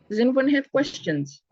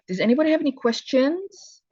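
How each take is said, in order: First: It sounds flat and unfriendly. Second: It sounds open and inviting.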